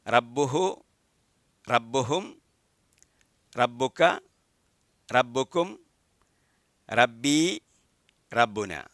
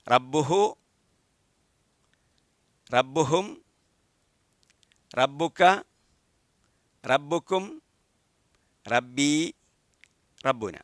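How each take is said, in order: First: It is said somewhat faster. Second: It is said at a normal pace.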